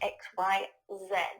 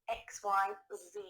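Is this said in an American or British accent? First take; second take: British; American. First: It is said in a British accent. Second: It is said in an American accent.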